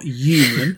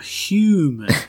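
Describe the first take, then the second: First: The word begins without any h sound. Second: The word begins with an audible h sound. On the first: The speaker calls it wrong. "not human" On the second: The speaker calls it right. "there's an H in that word. I'm human"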